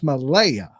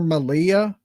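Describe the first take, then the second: First: The middle vowel sounds like 'eye'. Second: The middle vowel sounds like 'ee'. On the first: The speaker calls it right. "It's Malaya" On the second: The speaker calls it wrong. "I've been calling her Malia. My bad"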